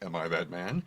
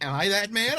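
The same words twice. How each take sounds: First: The voice is pitched low and deep. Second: The voice is pitched higher and lighter. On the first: This is how the line sounds in memory. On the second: This is how the line actually sounds in the film.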